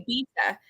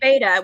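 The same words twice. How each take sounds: First: The first syllable sounds like 'bee'. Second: The first syllable sounds like 'bay'. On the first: This is how the other speaker's accent says it. "like it rhymes with pizza" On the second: This is how Americans say it. "we say beta, which I think of the little fish"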